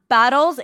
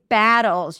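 First: The vowel sounds like the one in 'bottles'. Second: The vowel is made with lips pulled back. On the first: The speaker calls it wrong. "It's not battles" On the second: The speaker calls it right. "it's battles. You got to drop your jaw, pull the lips"

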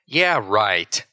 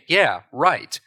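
First: It is said in a cheeky, sarcastic tone. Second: It is said in a sincere, agreeing tone. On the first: The speaker does not believe what was said. "If you're responding cheekily to something" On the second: The speaker agrees with what was said. "if you're agreeing somebody"

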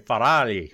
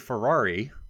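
First: The name is said the Italian way. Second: The name is said the common English way. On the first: "You would also have to say Ferrari" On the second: "you can't say Ferrari"

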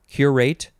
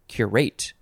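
First: The stress is on the first syllable. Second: The stress is on the second syllable. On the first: "emphasis on the first or second syllables" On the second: "emphasis on the first or second syllables"

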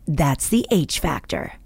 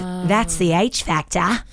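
First: An Australian accent with hard American-style R sounds. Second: A fully Australian accent with soft, dropped R sounds. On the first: The accent cannot be placed in one country. The speaker calls it right. "I read in my Aussie accent, but I throw in hard R's" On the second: The accent is clearly from Australia. The speaker calls it wrong. "would be way too Aussie"

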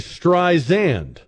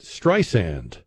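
First: The middle consonant is a buzzing z sound. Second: The middle consonant is a hissing s sound. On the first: The speaker calls it wrong. "like it had a Z in it" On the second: The speaker calls it right. "like sand on the beach"

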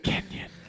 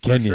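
First: It is said in a whisper. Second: It is said in a normal voice.

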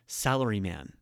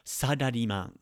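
First: It is said like the English word salaryman. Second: It is said with Japanese syllables and vowels. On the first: The speaker calls it wrong. "not salaryman" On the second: The speaker calls it right.

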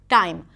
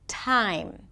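First: The T is unaspirated and sounds like D. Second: The T is aspirated with a puff of air. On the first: The speaker calls it wrong. "So then the word time might sound like dime" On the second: The speaker calls it right. "The T is usually aspirated"

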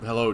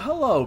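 First: The voice is pitched very low and deep. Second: The voice is pitched high with lively inflection. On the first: The character is in his masked hero persona. "very low" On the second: The character is in his public everyday persona. "he would talk with a higher inflection"

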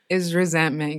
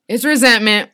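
First: It is said weakly and quietly. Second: It is said forcefully and loudly.

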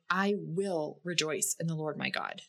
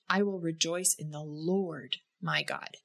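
First: The stress falls on the word "will". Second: The stress falls on the word "Lord". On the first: Rejoicing is a choice. "In the first instance, you can notice that it's a choice to rejoice in the Lord" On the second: The joy is found in the Lord as king. "And the third time, we notice that rejoicing in the Lord, that He is the King of our lives"

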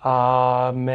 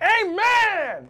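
First: It is said quietly with subdued energy. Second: It is said loudly with lively energy.

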